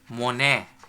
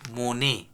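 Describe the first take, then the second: First: The vowel is open, like 'a'. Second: The vowel is closed, like 'e'. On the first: The speaker calls it wrong. "no one can pronounce it as monet" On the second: The speaker calls it right. "It would be pronounced as monet"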